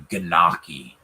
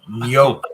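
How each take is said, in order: First: The word begins with a hard G sound. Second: The word begins with a Y-like sound. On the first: The speaker calls it wrong. "He said the Ganaki. I mean, what do you do with that?" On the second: The speaker calls it right. "Sounds like you're starting it with a Y"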